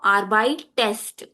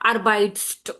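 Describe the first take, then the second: First: An extra vowel is heard before the ending. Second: The ending is a consonant cluster with no vowel. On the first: The speaker calls it right. "to make it easy to pronounce" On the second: The speaker calls it wrong. "We cannot pronounce"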